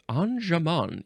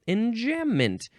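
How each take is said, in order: First: It is said with a French-style pronunciation. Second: It is said with an English-style pronunciation.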